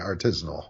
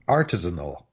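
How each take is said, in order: First: The stress is on the second syllable. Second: The stress is on the first syllable. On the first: This is the form many people use. "I want to say artisanal" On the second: This is the form the dictionaries give. "this little prefix is accented"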